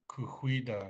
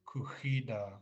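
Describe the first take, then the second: First: The word is said with an added W sound. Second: The word is said without a W sound. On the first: "He would add a W sound to that" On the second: "we softened it to kuhida"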